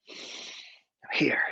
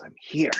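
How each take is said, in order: First: Whispered I'm here, drawn out; hushed inward affirmation. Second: Said in the usual way. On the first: Shown as a demonstration. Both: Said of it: "I invite you all to come here now".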